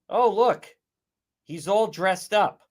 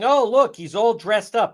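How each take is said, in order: First: It is said in a mocking, sarcastic tone. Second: It is said in a plain, sincere tone.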